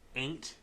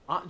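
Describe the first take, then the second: First: The word sounds like 'ain't', rhyming with 'paint'. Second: The word is said with its standard vowel. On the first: The speaker calls it right. "you say Ain't A A I N T A I apostrophe T Jemima" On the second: The speaker calls it wrong. "not Aunt Aunt Jemima"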